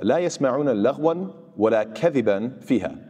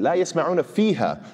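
First: Said in the usual way. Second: فيها lifted higher and leaned on, said last; stress on فيها. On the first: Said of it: "that would be sort of the expected sentence structure". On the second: Shown as a demonstration. Teacher showing students the word فيها, stressed. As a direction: hit فيها hard to show the emphasis. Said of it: "is being advanced and emphasized".

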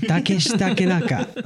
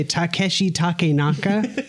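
First: "Takeshi Takenaka" in a Japanese accent, pitched up. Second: Takeshi Takenaka said slowly with a flat American accent; "Takeshi Takenaka" with American vowels, slow and careful; American-accented name. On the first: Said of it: "you'd say it with a different, like, accent". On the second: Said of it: "do I expect you to say that with the accent". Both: Shown as a demonstration.

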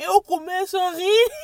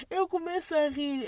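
First: Breaking into real laughter, much louder; can't hold back the giggles; laughing. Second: Said in the usual way. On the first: Real, not acted. Retelling the boot joke, real laughter bursting out.

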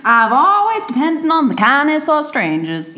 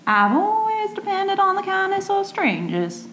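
First: Higher, steadier Southern American take; Southern American accent. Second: Much higher, breathy-free Southern American lilt with a laugh in it; Southern belle accent. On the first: Retaking the Streetcar quote in a Southern American accent, straight. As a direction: commit to the Southern belle voice this time. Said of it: "Yeah, that was good". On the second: Reading the Streetcar quote in a Southern American accent, laughing. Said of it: "You've got Streetcar Named Desire". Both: Acted.

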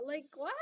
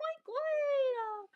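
First: Said in the usual way. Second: Much higher, falling on what; high surprised what. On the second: Shown as a demonstration. Talking herself out of a crush, squeaky what.

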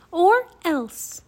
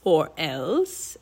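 First: Put-on high, loud childlike threat; defiant threat. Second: Low, questioning villain echo; mocking Raven King. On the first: Annie threatens the Raven King, high and defiant. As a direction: throw the threat out hotly. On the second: Raven King echoes Annie's threat, low and mocking. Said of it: "he asked in a raspy voice". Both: A narrator's reading.

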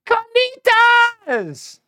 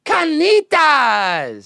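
First: Carnitas stretched very slow and much higher, rolled R; drawn-out Carnitas. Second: Carnitas stretched slow and a bit higher; drawn-out Carnitas. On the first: Leading the audience, very slow, high Carnitas. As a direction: sing out Carnitas slowly from up high. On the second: Leading the audience, slow called Carnitas. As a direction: call Carnitas out slowly again. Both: Shown as a demonstration. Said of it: "Say it with me".

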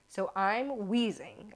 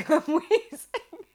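First: Said in the usual way. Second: High, loud, slow laughing wheeze; mock wheezing. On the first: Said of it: "I'm asthmatic". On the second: Asthmatic rider recalling the chase, exaggerated wheeze. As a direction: act out wheezing, pitched up and stretched.

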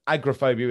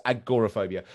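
First: Agoraphobia said as AGRA-phobia; mispronunciation. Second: Agoraphobia with GOR sounded in full; correct pronunciation. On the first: Co-host naming the different word, agoraphobia mispronounced as agra-phobia. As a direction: drop the middle vowel of agoraphobia, agra-phobia. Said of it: "most people mispronounce it". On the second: Co-host repeating the correction, correct pronunciation of agoraphobia. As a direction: stress the second syllable of agoraphobia, a-GOR-a-phobia. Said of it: "mispronounces it". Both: Shown as a demonstration.

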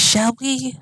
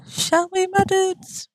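First: Said in the usual way. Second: Higher, teasing sing-song; playful high repeat. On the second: Acted. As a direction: toss it up high and playful to the viewers.

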